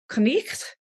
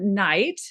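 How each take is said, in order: First: It has an 'eh' vowel and a throaty sound. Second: It has the modern 'eye' vowel. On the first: This is the Old English pronunciation. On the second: This is the modern pronunciation.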